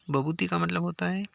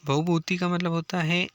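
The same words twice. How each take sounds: First: भवभूति said as "bhabhuti", without the V; V sound dropped. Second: Said in the usual way. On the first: Shown as a demonstration. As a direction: drop the V in भवभूति, making it "bha-bhu-ti". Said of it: "व यदि हटा दो यहाँ से तो ये भवभूति". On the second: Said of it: "ये व यदि हटा दो यहाँ से".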